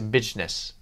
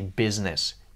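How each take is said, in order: First: The middle consonant is a j sound. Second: The middle consonant is a buzzing z sound. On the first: "You might use the word G, the letter G instead of Z" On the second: "you might not say business"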